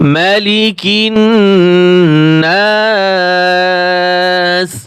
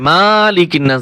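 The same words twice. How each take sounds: First: The first vowel is kept short. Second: The first vowel is drawn out long. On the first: The speaker calls it right. "এখানে টান হবে না" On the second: The speaker calls it wrong. "ভুল করে এখানে অনেকে টান দেয়"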